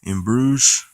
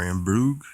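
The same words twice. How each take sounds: First: "Bruges" as "broozh", rising like a question; Bruges with soft ending. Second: "Bruges" as "broog", rising like a question; Bruges with hard ending. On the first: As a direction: end "Bruges" on a soft zh, tentatively. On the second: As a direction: end "Bruges" on a hard g, tentatively. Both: Shown as a demonstration. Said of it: "or In Bruges".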